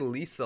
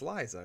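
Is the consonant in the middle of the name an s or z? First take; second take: s; z. First: The middle consonant is an s sound. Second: The middle consonant is a z sound. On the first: The speaker calls it wrong. "I assume people say Lisa a lot of times when they say her name. I don't think it's right" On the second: The speaker calls it right. "I think it's Liza, right?"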